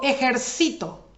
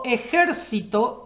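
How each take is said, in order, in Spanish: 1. La tónica está en la penúltima sílaba. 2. La tónica está en la antepenúltima sílaba. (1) "se vuelve en palabra grave... la penúltima" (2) "es esdrújula, porque la sílaba que soporta la tilde o el acento es la antepenúltima"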